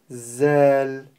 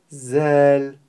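First: The first sound is made behind the teeth. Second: The same.

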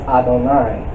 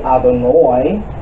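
First: The final syllable ends with an 'ai' sound. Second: The final syllable ends with an 'oi' sound.

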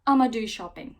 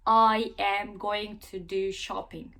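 First: 'I am going to' is squeezed into 'I'ma'. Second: Every word of 'I am going to' is fully said. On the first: "Amerikanlar bunu bir tık daha hızlı söylüyor" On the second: "Bakın ne kadar uzadı"

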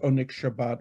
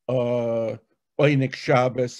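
First: The name is said with non-Yiddish pronunciation. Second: The name is said with Yiddish pronunciation.

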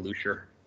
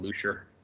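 First: The name is pronounced like the English word leisure. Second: The same.

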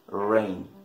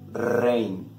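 First: The word starts with an English R sound. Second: The word starts with a Spanish R sound. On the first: "English R?" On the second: "Spanish R?"

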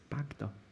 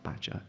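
First: The g sound comes before the d. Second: The d sound comes before the g. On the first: The speaker calls it right. "it's Bagder" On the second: The speaker calls it wrong. "I always want to say Badger, but it's not Badger"

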